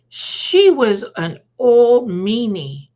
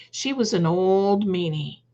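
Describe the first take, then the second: First: Slow, drawn-out, louder, a mild mother's voice; mom's slow consoling line. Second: Said in the usual way. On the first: Retold or imitated. Mom on the phone to her crying daughter, slow and drawn-out. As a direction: stretch it out like comforting mom. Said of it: "And she said". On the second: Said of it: "You know".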